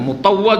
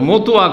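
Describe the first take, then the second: First: The word is pronounced carefully and in full. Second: The word is pronounced carelessly and clipped. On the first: The speaker calls it right. "শুদ্ধ করে বলারও ঢং হয় না। আরে মোতাওয়া যদি বলে তাও একটা হয়" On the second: The speaker calls it wrong. "কি বলে মতুয়া কেমন আছেন"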